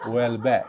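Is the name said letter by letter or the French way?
French way. The name is pronounced with a French accent. "som det låter på franska"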